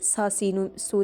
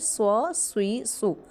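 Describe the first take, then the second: First: The s sounds are light and thin. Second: The s sounds are heavy and full. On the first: The speaker calls it wrong. "नहीं पढ़ेंगे" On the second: The speaker calls it right. "पुर अदा करेंगे"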